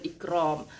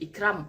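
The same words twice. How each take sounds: First: The r sound is thick and heavy. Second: The r sound is thin and light. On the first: The speaker calls it right. "Roh tu berbaris atas, maka kita tebalkan" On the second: The speaker calls it wrong. "tak boleh Ikram"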